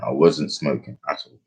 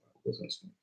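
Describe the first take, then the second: First: Said in the usual way. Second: Barely voiced repeat; whispered aside. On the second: Real, not acted. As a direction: whisper it under the breath.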